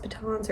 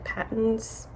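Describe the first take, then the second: First: "batons" stressed on the second syllable, puh-TAHNZ; first pronunciation guess. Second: "patents" stressed on the first syllable, PAT-unz; alternative pronunciation guess. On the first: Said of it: "If I'm saying it wrong". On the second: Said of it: "or is it patents?". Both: Shown as a demonstration.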